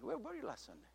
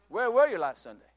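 First: The question sounds warm and friendly. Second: The question sounds harsh and scolding. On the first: The speaker missed the listener and cares about him. The speaker calls it right. "Or, hey" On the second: The speaker is scolding the listener. The speaker calls it wrong. "If there is no love involved, he receives it like Pastor is chewing me out"

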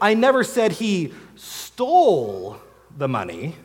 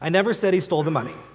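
First: The word stole is stressed. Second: It is said plainly with no special stress.

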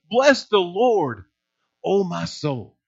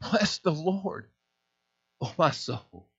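First: It is shouted loudly and with energy. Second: It is said quietly and reverently.

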